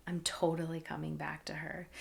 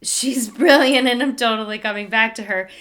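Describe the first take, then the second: First: Breathy hushed aside to herself; unvoiced awed whisper; whispered thought. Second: Louder, laughing through the words; She's brilliant said with a laugh, louder; laughing retelling. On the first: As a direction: murmur it under your breath in awe. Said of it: "I thought". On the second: Retold or imitated. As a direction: say it with a grateful laugh. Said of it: "I thought to say".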